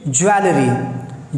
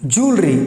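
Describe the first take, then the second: First: The word is said the common local way. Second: The word is said the British-American way. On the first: The speaker calls it wrong. "अक्सर लोग इस शब्द को बोलते हैं जैसे ज्वेलरी" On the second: The speaker calls it right. "ब्रिट और American में इसको बोला जाता है"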